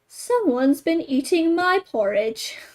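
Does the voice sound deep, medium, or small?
medium. It is said in a medium-sized voice. "in her middle-sized voice"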